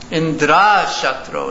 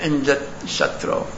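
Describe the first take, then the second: First: The key sound is held long. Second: The key sound is kept short. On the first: One whose enemy is Indra. The speaker calls it wrong. "Tvastha chanted it long" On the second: The enemy of Indra. The speaker calls it right. "instead of"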